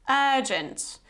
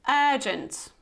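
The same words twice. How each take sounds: The two takes are said the same way.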